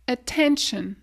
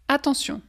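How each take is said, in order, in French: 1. Elle se dit avec une prononciation anglaise. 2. Elle se dit avec une prononciation française.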